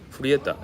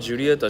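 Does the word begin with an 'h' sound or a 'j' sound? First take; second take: h; j. First: The word begins with an 'h' sound. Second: The word begins with a 'j' sound. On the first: The speaker calls it right. "J がハヒフヘホになるのでフリエタになる" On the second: The speaker calls it wrong. "ロメオ・イ・ジュリエタじゃなくて"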